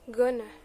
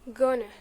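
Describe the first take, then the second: First: The words are merged into one short form. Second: The same.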